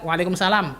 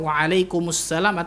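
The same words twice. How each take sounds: First: The article is dropped, leaving a single s. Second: The article is heard, doubling the s sound. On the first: The speaker calls it wrong. "Yang kita biasa" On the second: The speaker calls it right. "Lebih tepatnya ya"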